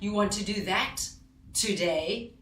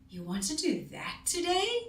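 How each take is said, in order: First: It sounds upset and angry. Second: It sounds puzzled, rising at the end. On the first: The speaker disapproves of the choice. "So now I'm sounding more upset. I'm a little bit angry" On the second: The speaker is surprised by the choice. "My voice went up at the end. I'm puzzled"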